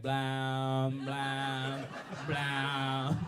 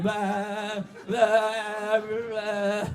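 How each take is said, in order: First: Drawn-out, monotone "blah" droned like a toy; mimicking a buzzing toy. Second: Long, loud, higher vibrating "blah"; imitating vibration. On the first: Comedian demonstrating his toy imitation, droned blahs. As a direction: imitate a toy's steady drone. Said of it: "I'm trying to mimic the toy". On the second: Comedian showing himself learning to vibrate, high droned blahs. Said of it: "teach myself how to vibrate".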